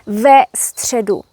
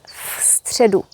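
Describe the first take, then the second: First: A short e vowel follows the v. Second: The v joins the next word with no vowel. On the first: The speaker calls it right. "it's ve středu" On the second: The speaker calls it wrong. "never v středu"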